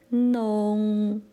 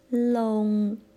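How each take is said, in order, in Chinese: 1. 这个字的开头是 n 音。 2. 这个字的开头是 l 音。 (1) "是呢开头的" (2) "也有人用了开头的"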